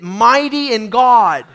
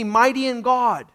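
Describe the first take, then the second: First: It is said forcefully, with strong conviction. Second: It is said in a plain, calm way.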